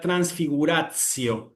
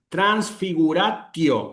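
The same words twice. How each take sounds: First: The t before the ending sounds like ts. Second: The t before the ending is a hard t. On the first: This is the church pronunciation. "En la pronunciación eclesiástica ... es una T S" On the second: This is the classical pronunciation. "una T fuerte"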